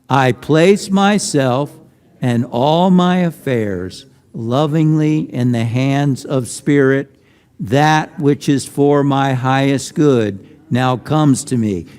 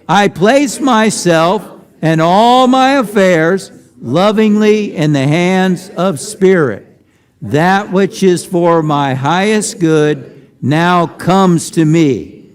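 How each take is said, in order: First: It is said in a softer voice. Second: It is said in a loud voice.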